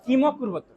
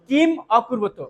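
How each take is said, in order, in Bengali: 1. দুটি শব্দ কোনো থামা ছাড়া একসাথে বলা হয়। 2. দুটি শব্দ মাঝে থেমে বলা হয়। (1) "যদি একসাথে উচ্চারণ করেন" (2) "যদি ভেঙে উচ্চারণ করেন ... ওখানে আর টানা যাবে না, থেমে দিতে হবে"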